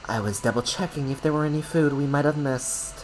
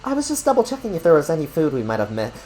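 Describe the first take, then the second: First: It is read in a put-on character voice. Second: It is read in the speaker's normal voice.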